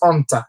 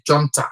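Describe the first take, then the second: First: The word begins without any J sound. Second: The word begins with a sounded J. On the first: The speaker calls it right. "it is junta" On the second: The speaker calls it wrong. "you don't pronounce the J, you don't say junta"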